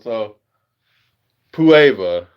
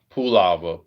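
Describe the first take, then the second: First: It has no L sound before the ending. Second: It has an L sound before the ending. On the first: The speaker calls it right. "without the L" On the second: The speaker calls it wrong. "I'm just messing around when I'm saying the lava part"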